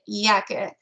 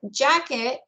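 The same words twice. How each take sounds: First: The word starts with a Y sound. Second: The word starts with a J sound. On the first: "they produce Y for J" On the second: "the English word jacket"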